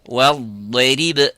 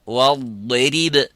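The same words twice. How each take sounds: Both takes have the same delivery.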